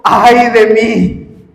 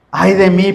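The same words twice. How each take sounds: First: "Ay de mí" drawn out slowly, the "ay" stretched and falling; dramatic lament. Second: Said in the usual way. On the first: Acted. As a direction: voice Isaiah's stricken cry slowly. ("Ay de mí" lento, con el "ay" alargado y cayendo) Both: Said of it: "era una expresión de maldición contra sí mismo".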